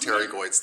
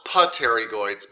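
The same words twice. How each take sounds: First: The initial P sound is left out. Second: The initial P sound is pronounced. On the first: This is how the word is actually said. "it's pronounced pterygoids. The P is silent" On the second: This is how the word is spelled. "it's spelled"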